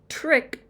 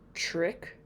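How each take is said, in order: First: It begins with a plain t and r. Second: It begins with a ch-like sound.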